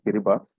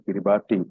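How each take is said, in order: First: The name is said differently from its spelling. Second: The name is said just as it is spelled. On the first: The speaker calls it right. "it is pronounced as Kiribati" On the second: The speaker calls it wrong. "although it is written Kiribati"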